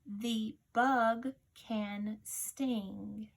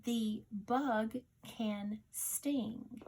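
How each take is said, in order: First: Very slow and even dictation reading; teacher reads a sentence aloud slowly. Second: Slow, even repeat of the dictation sentence; teacher repeats the dictation sentence slowly. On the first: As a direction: read it slowly, word by word, for dictation. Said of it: "Your sentence is". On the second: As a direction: say it again, just as slow. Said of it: "Listen again". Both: Shown as a demonstration.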